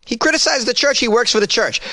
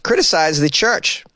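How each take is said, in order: First: Pitched-up disbelief on criticized; incredulous. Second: Said in the usual way. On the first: Real, not acted. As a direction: stress criticized, high and incredulous. Incredulous repeat.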